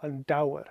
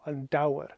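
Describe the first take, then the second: First: The middle consonant is a W sound. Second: The middle consonant is a W sound.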